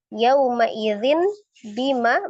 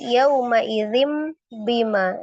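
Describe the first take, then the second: First: An n sound comes right before bima. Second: An m sound comes right before bima. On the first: "bunyi nun sukun" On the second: "menjadi mim sukun"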